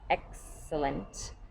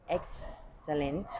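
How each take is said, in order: First: The x is said with a ks sound. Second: The x is said as a plain s. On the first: The speaker calls it right. "a softer sound" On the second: The speaker calls it wrong. "where it becomes an S"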